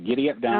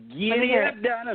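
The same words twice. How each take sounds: First: It is said flatly, with little energy. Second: It is said with lively, enthusiastic energy. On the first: The speaker calls it wrong. "you could say that with a little more enthusiasm" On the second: The speaker calls it right. "There, I like that better"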